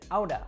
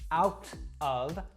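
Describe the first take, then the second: First: The t is a quick d-like tongue flap. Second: The t is a crisp, full t sound. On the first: "I said outa" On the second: "I didn't say out of"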